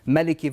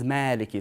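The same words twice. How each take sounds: First: The first vowel is short. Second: The first vowel is long. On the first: It means king. "you have a short vowel" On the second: It means owner. "and a long vowel"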